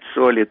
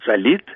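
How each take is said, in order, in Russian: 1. Ударение на первом слоге. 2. Ударение на втором слоге. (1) "мы теперь говорим" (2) "Раньше говорили"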